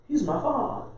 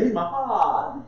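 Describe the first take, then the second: First: Soft, tender stress on my father; quiet, loving emphasis on father; softly savoured. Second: Slow, relishing emphasis on father; fond, unhurried repeat; slower, savoured take. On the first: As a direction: say it gently, savouring it. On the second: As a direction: let father land slowly. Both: Shown as a demonstration. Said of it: "I like saying it like that".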